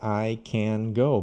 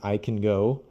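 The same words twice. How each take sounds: First: It is said in careful, textbook style. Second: It is said in relaxed, natural everyday speech. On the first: "how I teach new students" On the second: "when we're speaking naturally"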